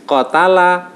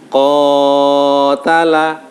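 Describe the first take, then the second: First: The first vowel is cut short, not lengthened. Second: The first vowel is stretched far too long. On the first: "oh berarti itu enggak ada bacaan matnya" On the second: "nah itu terlalu panjang"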